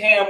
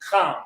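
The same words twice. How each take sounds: First: It begins with a soft, plain h sound. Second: It begins with a harsh rasp from the throat. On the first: The speaker calls it wrong. "we say Ham without the ch sound to it" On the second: The speaker calls it right. "the correct way to say ham is Ham with a strong ch sound to it"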